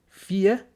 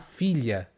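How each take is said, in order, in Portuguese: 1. O 'lh' do meio é omitido. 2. O 'lh' do meio é pronunciado.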